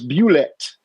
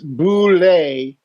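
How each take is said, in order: First: The word ends like the end of 'rocket'. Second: The word is said with a French-style ending. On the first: "like Bueller, like you know Bue, and then like rocket" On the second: "as they were aiming for more of a French thing"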